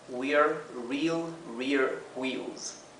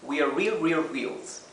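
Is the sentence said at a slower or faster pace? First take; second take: slower; faster. First: The sentence is said at a slower pace. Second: The sentence is said at a faster pace.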